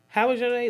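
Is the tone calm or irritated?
irritated. The question is asked in a sharp, irritated tone. The speaker will answer, then complain about their own day. "Let you know that you finna tell me how your day was, but when I open my mouth and tell you about mine, it's gonna be a time"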